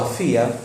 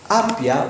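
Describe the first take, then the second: First: The middle consonant is an f sound. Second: The middle consonant is a p sound. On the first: The speaker calls it right. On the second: The speaker calls it wrong.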